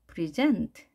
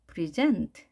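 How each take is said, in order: First: The stress is on the second syllable. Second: The stress is on the second syllable.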